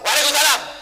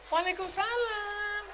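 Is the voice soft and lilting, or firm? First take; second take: firm; lilting. First: It is said in a firm, curt voice. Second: It is said in a soft, lilting voice.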